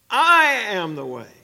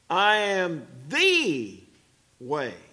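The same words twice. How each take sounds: First: The word "I" carries the main stress. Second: The word "the" carries the main stress. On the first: This one and no other is the way. "Now notice the emphasis on the word I" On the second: There is one way, not merely a way. "Notice the emphasis on the word the"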